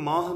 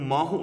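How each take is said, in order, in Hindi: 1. शब्द सीधा समाप्त होता है, उसमें 'o' स्वर नहीं है। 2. शब्द के अंत में एक अतिरिक्त 'o' स्वर जुड़ता है। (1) "उहदा उच्चारण नहीं करना हुंदा" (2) "इनू माहो नहीं पढ़ना"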